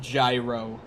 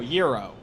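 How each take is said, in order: First: The word begins with a J sound. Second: The word begins with a Y sound. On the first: The speaker calls it wrong. "No, not gyro" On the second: The speaker calls it right. "No, euro"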